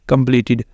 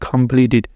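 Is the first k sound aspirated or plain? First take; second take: plain; aspirated. First: The first k is plain, without a puff. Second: The first k has a breathy puff. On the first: The speaker calls it wrong. "हम इसको गलत बोलते रहते हैं" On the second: The speaker calls it right. "सी को काफ की आवाज़ के साथ"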